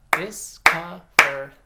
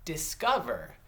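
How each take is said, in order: First: Discover slow and loud, in three separate beats; clapped syllables. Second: Said in the usual way. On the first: Shown as a demonstration. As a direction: clap out Dis-co-ver. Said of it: "you can clap it out". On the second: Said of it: "I'll say the word".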